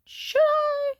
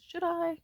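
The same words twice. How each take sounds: First: Loud, very high-pitched questioning squeal; exaggerated doubt. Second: Higher, questioning aside; self-questioning. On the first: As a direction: question it in a sky-high, louder voice. Repeats question, exaggerated second take. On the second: Retold or imitated. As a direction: wonder it to yourself, pitched up. Questioning herself, first take.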